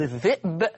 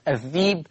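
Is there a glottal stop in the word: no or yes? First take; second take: yes; no. First: A glottal stop is heard in the middle. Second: A long ee sound replaces the glottal stop. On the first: "لفظ الذئب" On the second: "قرأت الذيب"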